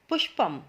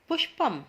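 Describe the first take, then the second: Both takes have the same delivery.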